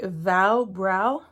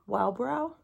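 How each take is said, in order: First: The word begins with a V sound. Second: The word begins with a W sound. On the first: "it has a V like vow brow" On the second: "don't you pronounce it as a W like wow brow?"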